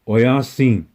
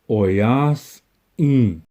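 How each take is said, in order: First: The word is said smoothly without any break. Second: A tiny silence separates the s and the i. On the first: The speaker calls it wrong. "people think that you say the word oyasin. That's incorrect" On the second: The speaker calls it right. "There is a space between that S and the I"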